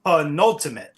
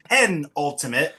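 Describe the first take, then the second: First: "penultimate" as puh-NUL-timate, stressed second syllable; puh-NUL-ti-mate for "penultimate"; puh-NUL pronunciation. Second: "penultimate" as PEN-ultimate, stressed first syllable; slow PEN-ul-ti-mate for "penultimate"; PEN pronunciation. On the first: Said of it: "I'm saying it's called the". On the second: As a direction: say "penultimate" slowly with a full "pen" up front. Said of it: "Bob is saying the penultimate". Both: Shown as a demonstration.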